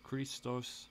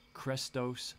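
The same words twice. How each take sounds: First: Christos said "KREE-stohss"; long "ee" in the first syllable of Christos. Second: Christos said "KRESS-tohss"; short "eh" in the first syllable of Christos. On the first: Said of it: "sometimes pronounced". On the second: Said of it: "sometimes pronounced Christos". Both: Shown as a demonstration.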